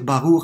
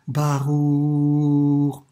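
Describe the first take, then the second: First: The word is said quickly. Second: The word is drawn out slowly. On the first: The blessing is rushed without thought. The speaker calls it wrong. "pas simplement de dire" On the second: The blessing is said with awareness. The speaker calls it right. "faisons la bénédiction le plus lentement possible"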